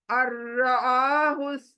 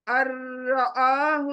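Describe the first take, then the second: First: अर्राहुस्तगना recited with the doubled र्र rolled and held; Quranic recitation. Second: अर्राहुस्तगना again, straight onto the doubled र्र; Quranic recitation. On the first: Teacher showing idgham without ghunna, recited. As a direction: chant अर्राहुस्तगना, jumping straight to the र. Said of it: "अ से र पर jumping". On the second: Teacher repeating the example for students, recited. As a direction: recite अर्राहुस्तगना with no nasal sound. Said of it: "देखिए direct र पर". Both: Shown as a demonstration.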